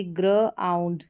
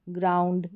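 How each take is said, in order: First: ग्र आउंड slowly split as "gruh - aund"; sounding out. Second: Said in the usual way. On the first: Shown as a demonstration. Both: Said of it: "जीआर को ग्र पढ़ेंगे".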